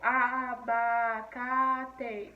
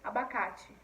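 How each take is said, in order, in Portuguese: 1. Cada sílaba é separada e igualmente forte. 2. Flui suavemente, com a ênfase em 'ca'. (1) "Parece que todas são mais fortes" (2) "pronunciar a palavra normalmente"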